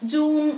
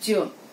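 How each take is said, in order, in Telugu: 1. ప్రారంభ j ధ్వని మృదువుగా, బలహీనంగా ఉంది. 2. ప్రారంభ j ధ్వని బలంగా, ఒత్తిడితో ఉంది. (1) "ఇది కూడా blunder one" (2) "it has to be sound as"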